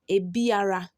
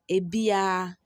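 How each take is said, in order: First: The r sound is pronounced in full. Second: The r sound is dropped entirely. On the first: "That's how it is written" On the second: "you pronounce it as a bia"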